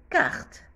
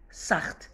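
First: كارت said with a hard K at the start, stressed and lifted; correct hard C. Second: ساخت said wrongly, starting with a soft S. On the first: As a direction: hit the K of كارت clearly. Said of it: "ننطقها". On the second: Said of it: "هنا ما ننطقش ساخت". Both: Shown as a demonstration.

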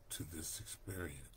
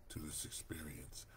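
Both takes have the same delivery.

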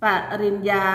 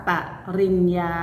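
First: Said in the usual way. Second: ปริญญา broken with a pause after the first syllable ป; syllable-by-syllable reading. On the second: Shown as a demonstration. Teacher showing pupils how it reads, syllable by syllable. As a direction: read out ปริญญา in separate, measured syllables. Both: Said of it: "อ่านว่า".

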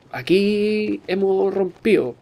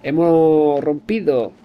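First: "rompido" said as rompío, d dropped; slurred "rompido" with no d sound; rompido without d. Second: "rompido" said slowly, the d clearly sounded; slow, careful "Hemos rompido" with a clear d. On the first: Gamer drops the d in "rompido". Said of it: "Rompido es mal porque falta una D". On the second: Gamer shows the proper "rompido", slow and careful. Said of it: "Hay que pronunciar bien". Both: Shown as a demonstration.

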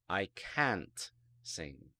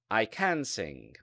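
First: Can't drawn out slowly and stressed. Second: Said in the usual way. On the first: Shown as a demonstration. Teacher contrasting can and can't for students. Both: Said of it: "For example".

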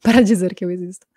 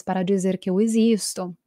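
First: Laughing. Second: Said in the usual way. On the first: Real, not acted. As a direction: repeat it through a real laugh. Repeats the phrase laughing. (rindo de verdade)

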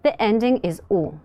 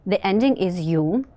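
First: U said as a pure "oo"; plain U ending. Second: U said as "yu", with a y-glide; iotated U ending. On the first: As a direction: pronounce the final U without any y-glide. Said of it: "If the stem ends in a consonant". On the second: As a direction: pronounce the final U like "you". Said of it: "If the stem ends in a vowel". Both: Shown as a demonstration.

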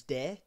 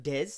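First: De, said without the final s; French silent S. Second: Des, with the s voiced at the end; sounded final S. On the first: Explaining French spelling to a friend, silent final S. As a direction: say "de" with the S left silent. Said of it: "don't pronounce the S". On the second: Contrasting how it looks in French, sounded final S. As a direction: say "des" with its last letter heard. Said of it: "it sounds like des". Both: Shown as a demonstration.

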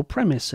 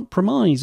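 First: Premise said as "PREM-iss"; first-syllable stress in premise. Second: Premise said as "pruh-MIZE"; long "eye" vowel ending premise; second-syllable stress in premise. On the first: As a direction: say premise with a short final "iss". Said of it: "as some people would say". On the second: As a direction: say premise to rhyme with surprise. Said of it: "or premise as some people would say". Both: Shown as a demonstration.

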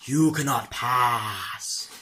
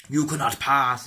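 First: Lightly hammed-up wizard decree; mock wizard, slowed. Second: A slow, booming hint of Gandalf; mock wizard. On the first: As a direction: stretch "you cannot pass" very slowly like a wizard. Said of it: "It's kinda like". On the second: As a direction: play the wizard blocking the bridge, lightly. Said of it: "It's kinda like Wizard".

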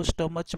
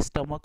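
First: स्टमच ending in "ch" as in चे; common mispronunciation. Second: स्टमक ending in a hard "k"; correct pronunciation. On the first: Teacher quoting a common mistake, स्टमच with final "ch". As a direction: say स्टमच with a "ch" instead of a "k" at the end. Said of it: "कई लोग इसको स्टमच बोलते हैं". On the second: Teacher correcting a common mistake, स्टमक with final "k". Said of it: "लेकिन ये स्टमक होता है". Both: Shown as a demonstration.

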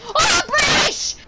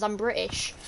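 First: Very high, loud, drawn-out yell; hammed-up high proclamation; mock outraged shout. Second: Said in the usual way. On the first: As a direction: shriek the nationality as a joke. Mock outcry after correcting self.

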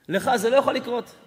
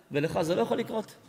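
First: לא punched louder in "לך זה לא יכול לקרות"; insist, landing on לא; stress on לא. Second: Said in the usual way. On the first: Shown as a demonstration. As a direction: hit the word לא hard and let it fall. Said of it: "repeated with emphasis". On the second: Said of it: "repeats the line with force".

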